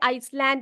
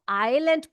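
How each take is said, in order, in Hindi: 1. शब्द को 's' ध्वनि के साथ बोला जाता है। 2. शब्द को 's' ध्वनि के बिना बोला जाता है। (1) "आइसलैंड नहीं बोलना" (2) "इसको आइलैंड पढ़ते हैं। ये एस जो यहां पर है ये साइलेंट होता है"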